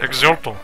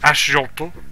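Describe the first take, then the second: First: The x is said with a ks sound. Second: The x is said with a sh sound. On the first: This is the usual modern pronunciation. "That's actually how you pronounce it" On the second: This follows the original Aztec pronunciation. "because X's are pronounced with a sh"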